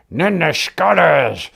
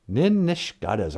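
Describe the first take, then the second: First: Slow, tight mock-mad growl; through gritted teeth. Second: Said in the usual way. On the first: Shown as a demonstration. Teacher shows how to say "I'm mad", through gritted teeth. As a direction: squeeze it out slowly between gritted teeth. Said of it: "say between grit teeth". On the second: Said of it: "something you can say between grit teeth".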